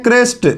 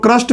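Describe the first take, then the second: First: क्रेस्ट with an e vowel; क्रेस्ट, e between r and s; English pronunciation. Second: क्रस्ट with a short a vowel; क्रस्ट, no e sound between r and s; alternative pronunciation. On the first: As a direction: say क्रेस्ट like "crest". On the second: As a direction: say क्रस्ट like "crust". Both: Shown as a demonstration. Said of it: "कुछ लोग क्रस्ट भी पढ़ते हैं".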